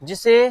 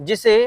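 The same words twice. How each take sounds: Both takes have the same delivery.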